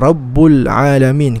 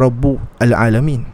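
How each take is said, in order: First: Rabbu links directly into l without a stop. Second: A glottal stop starts al after rabbu. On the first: The speaker calls it right. "Kita kata Rabbul Alamin" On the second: The speaker calls it wrong. "kita tak kata Rabbu Al-Alamin"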